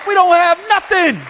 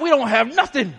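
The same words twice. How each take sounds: First: High, loud repeat of "don't"; "don't have nothing" shouted from the pulpit; emphatic shout. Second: Said in the usual way. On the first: Real, not acted.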